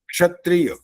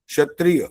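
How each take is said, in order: First: The word starts with a k plus sh sound. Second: The word starts with a plain sh sound. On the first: The speaker calls it right. "अरे क और श मिला हुआ है" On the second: The speaker calls it wrong. "श भी बोल देते हैं इसी को"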